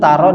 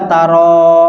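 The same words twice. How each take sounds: First: The final vowel is short. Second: The final vowel is drawn out long. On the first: The speaker calls it right. "dibaca pendek" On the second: The speaker calls it wrong. "Tidak boleh dibaca pan. Jadi jangan dibaca taro"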